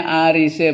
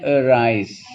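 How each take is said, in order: First: "arise" sounded out as ah-ree-seh; read as spelled. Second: "arise" as uh-rise, drawn out slowly; correct English reading. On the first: Teacher showing the class the spelling, "arise" as ah-ree-seh. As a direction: say "arise" as written, every vowel voiced. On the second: Teacher giving the class the reading, "arise" as uh-rise. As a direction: say "arise" in two syllables, schwa first. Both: Shown as a demonstration.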